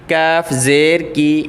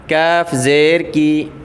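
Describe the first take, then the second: Both takes have the same delivery.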